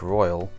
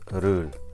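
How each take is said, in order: First: The name sounds like the word royal. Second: The name sounds like the word rule. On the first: The speaker calls it wrong. "I've been pronouncing the name wrong all along ... looks like royal" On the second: The speaker calls it right. "I think it's pronounced Rul, something like that"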